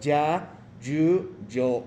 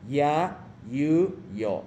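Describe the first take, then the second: First: The y sounds are pronounced the Spanish way. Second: The y sounds are pronounced the Japanese way. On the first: The speaker calls it wrong. "La pronunciación no es ya, you, yo de español" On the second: The speaker calls it right. "sino en este caso ya, you, yo"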